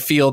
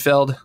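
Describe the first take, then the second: First: The word is said with a long 'ee' vowel. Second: The word is said with a short 'eh' vowel. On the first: The speaker calls it right. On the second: The speaker calls it wrong.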